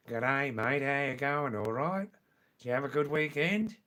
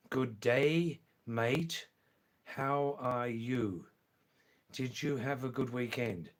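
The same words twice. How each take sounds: First: Broad, louder Australian greeting; original Australian accent. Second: Careful, drawn-out greeting; slow and deliberate. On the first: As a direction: run it together in broad Australian. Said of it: "In original Australian". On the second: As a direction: say it slowly so a learner understands. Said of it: "I'll say it slowly this time". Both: Shown as a demonstration.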